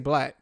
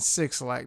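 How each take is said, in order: First: The name is said as one word, 'black'. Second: The name is read aloud as 'six lack'. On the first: The speaker calls it right. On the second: The speaker calls it wrong. "don't just kick it off as in Six Lack. That's horrible"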